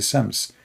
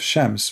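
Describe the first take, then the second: First: The word begins with an 's' sound. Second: The word begins with an 'sh' sound. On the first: "So the letter Sin switched to be Sin" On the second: "Instead of Shams"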